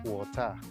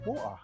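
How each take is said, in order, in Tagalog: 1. Matalim ang tunog ng T. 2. Nawawala ang tunog ng T. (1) "ang letrang T naman ay mas lalong nagiging sharp" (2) "Cockney accent na magiging wa"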